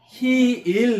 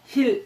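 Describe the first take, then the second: First: The vowel is drawn out long. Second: The vowel is short and clipped. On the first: The speaker calls it right. "히일 느낌으로 발음해야 돼요" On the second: The speaker calls it wrong. "그냥 힐 이렇게 하는 게 아니고"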